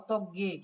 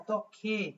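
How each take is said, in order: First: The final consonant is a plain, unaspirated sound. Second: The final consonant is an aspirated k sound. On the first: The speaker calls it wrong. "অনেক উচ্চারণ করে অতজ্ঞে" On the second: The speaker calls it right. "কিন্তু এটার উচ্চারণ হচ্ছে অতক্ষে"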